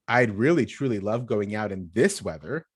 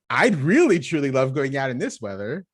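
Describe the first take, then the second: First: It is said in a sarcastic tone. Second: It is said in a sincere, enthusiastic tone. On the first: The weather is horrible and going out is unwanted. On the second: The weather is lovely and going out is wanted.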